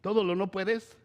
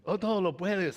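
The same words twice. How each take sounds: First: "¿Todo lo no puedes?" asked with a rise on todo; mock disbelief, "Todo" lifted as a question; questioning stress on todo. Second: "todo lo puedes" stated with a falling "todo"; firm correction on todo. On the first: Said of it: "¿Y qué dice Jesús?". (pregunta incrédula con subida en "Todo") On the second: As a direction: settle it: todo falls, firm and sure. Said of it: "se dice". (afirmación firme con "todo" descendente) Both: Shown as a demonstration.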